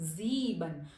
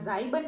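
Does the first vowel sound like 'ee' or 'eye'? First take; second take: ee; eye. First: The first vowel sounds like 'ee'. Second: The first vowel sounds like 'eye'. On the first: The speaker calls it right. "આ હું શું બોલી આને? ઝીબન" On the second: The speaker calls it wrong. "આ ઝાઈબન નથી"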